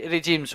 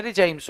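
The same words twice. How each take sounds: First: रिजीम्स with a long ee, ri-jeems; रिजीम्स pronounced ri-jeems; said as rijims. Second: रिजाइम्स with ai, ri-jaims; रिजाइम्स pronounced ri-jaims; said as rijaims. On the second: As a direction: say रिजाइम्स as ri-jaims, correcting himself. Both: Shown as a demonstration. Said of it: "रिजाइम्स होते हैं".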